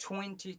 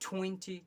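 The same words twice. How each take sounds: No difference in how they are said.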